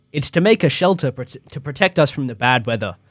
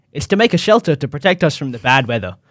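The two takes are said the same way.

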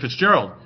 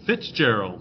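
First: The stress is on the second syllable. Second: The stress is on the first syllable. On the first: "I say Fitzgerald" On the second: "it's Fitz. ... You guys go Fitzgerald"

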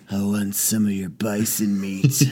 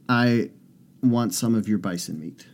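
First: It is said in a put-on seductive voice. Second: It is said in a plain, ordinary voice. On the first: It is meant suggestively. "try it in the sexy voice" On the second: It is meant innocently. "I didn't use the sexy voice"

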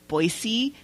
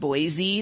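First: The middle consonant is a soft s sound. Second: The middle consonant is a buzzing z sound. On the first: The speaker calls it right. "it is Boise" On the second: The speaker calls it wrong. "not Boise. There is no Z"

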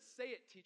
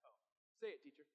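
First: It is said in a plain, sincere tone. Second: It is said in a mocking, sarcastic tone.

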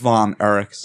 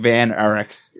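First: The first word has the vowel of 'von'. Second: The first word has the vowel of 'van'. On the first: The speaker calls it right. "It's Von Erichs" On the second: The speaker calls it wrong. "Saying Van Erichs"

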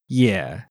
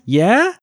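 First: The pitch dips low and then comes up. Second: The pitch rises steadily from low to high.

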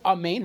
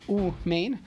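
First: The first vowel sounds like 'ah'. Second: The first vowel sounds like 'oo'. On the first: The speaker calls it right. "so is Amin" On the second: The speaker calls it wrong. "not Umain. So that would be wrong"

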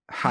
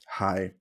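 First: It is said in a normal voice. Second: It is said in a very deep voice.

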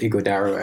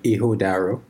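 First: The name is said with a G sound. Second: The name is said without a G sound. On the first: This is the common form the owner prefers. "a lot of people call it Ighodaro" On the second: This is the original form of the name. "so it's more like Ighodaro"

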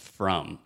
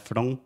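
First: The final M is said with the lips closed. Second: The final M is said without closing the lips. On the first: The speaker calls it right. "você precisa fechar a boca totalmente" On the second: The speaker calls it wrong. "não é from"

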